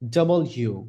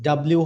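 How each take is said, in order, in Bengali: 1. অক্ষরের নামটি 'double you' বলে বলা হয়। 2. অক্ষরের নামটি একসাথে চেপে 'dablu' বলা হয়। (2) "ডাব্লিউ হবে না"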